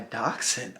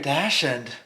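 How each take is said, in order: First: The word is said the usual way. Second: The word sounds like 'dash end'. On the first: "she means my dachshund" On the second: "I've never heard somebody say it like that"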